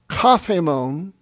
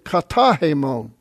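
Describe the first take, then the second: First: The final vowel drops and the t becomes th. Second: The final vowel is kept and the t stays. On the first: "Kafhemon is easier to say" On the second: "than katahemon"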